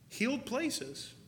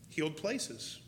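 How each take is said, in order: First: "Healed places" drawn out slowly, much higher; stress on Healed places. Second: Said in the usual way. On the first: Shown as a demonstration. Telling the church where healing comes from, "Healed" stretched high. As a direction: lean hard and slow on "Healed places". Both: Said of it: "repeated for emphasis".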